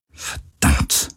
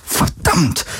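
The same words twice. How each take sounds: First: Soft, voiceless mutter; murmured curse. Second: Hissed curse jumping higher; muttered curse. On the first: Captain with eyes shut, murmuring a curse. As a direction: curse under the breath. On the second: Captain cursing over and over, sharper mutter. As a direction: let the whispered curse burst out. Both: A narrator's reading. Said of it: "murmelte sie immer wieder".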